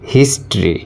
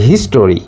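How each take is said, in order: First: The word has two syllables, with the middle vowel dropped. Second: The word has three syllables, with a full middle vowel. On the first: The speaker calls it right. "হিস্ট্রি, not হিস্টোরি" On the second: The speaker calls it wrong. "আসলে এই হিস্টোরি হবে না"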